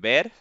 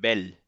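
First: The word ends with an R sound. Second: The word ends with an L sound, Cuban style.

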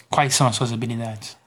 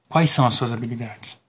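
No difference in how they are said.

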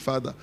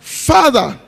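First: The word is said flatly, without feeling. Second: The word is said warmly, with feeling. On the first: It is said only out of duty. The speaker calls it wrong. "because where I'm told to say Father. So I'm saying Father" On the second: It expresses a personal, loving bond. The speaker calls it right. "This is the Father you say that comes from your spirit"

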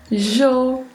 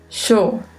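First: The word begins with a zh sound. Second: The word begins with a sh sound. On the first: "um som de J" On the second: "um leve som de X"

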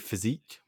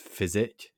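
First: The word ends with a long 'eek' sound. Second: The word ends with a short 'ik' sound. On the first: "I appreciate some say physique" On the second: "I'm just gonna pronounce it as physic"

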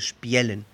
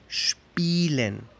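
First: The first vowel glides from i to e. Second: The first vowel is a single long i sound. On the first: The speaker calls it wrong. "No se dice spielen" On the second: The speaker calls it right. "Solo se escucha la I larga"

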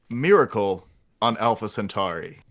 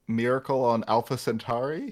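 First: It is said confidently, like a firm statement. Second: It is said uncertainly, like a tentative question.

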